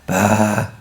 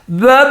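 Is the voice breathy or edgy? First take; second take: breathy; edgy. First: The syllable is airy and breathy. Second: The syllable has a clear, firm edge. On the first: The speaker calls it wrong. "You're not airy or breathy" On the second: The speaker calls it right. "There's the edge"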